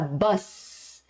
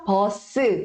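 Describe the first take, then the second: First: It is said as one syllable, ending in s. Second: It is said as two syllables, ending in a vowel. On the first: "ao invés de falar bus" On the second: "a gente vai acrescentar a vogal U, e aí fica posso"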